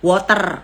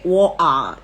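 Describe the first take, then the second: First: It is said in a Javanese-flavoured English accent. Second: It is said in a British accent. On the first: "Kalau Jonglish" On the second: "Kalau logatnya U K"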